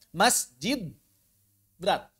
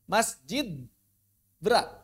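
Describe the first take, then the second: Both takes have the same delivery.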